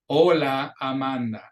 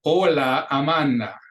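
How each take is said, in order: First: Same line again with a pause for the class; "Hola, Amanda" repeated, every A pure ah; second model take. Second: "Hola, Amanda" with every A open like ah; model Spanish line. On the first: Teacher repeats the line for students to echo, clear. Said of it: "have you repeat it after me". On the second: Teacher reads a line for students to repeat, clear and careful. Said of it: "I'll read the line and have you repeat it". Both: Shown as a demonstration.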